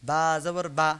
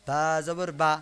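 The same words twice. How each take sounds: No difference in how they are said.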